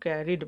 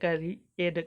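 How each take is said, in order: First: The ending is a short 'id'. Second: The ending is split off as 'ee-ed'. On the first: The speaker calls it right. "इसको हम लोग कैरिड बोलते हैं" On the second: The speaker calls it wrong. "जो भी आप इसको बोल रहे हैं यह गलत है"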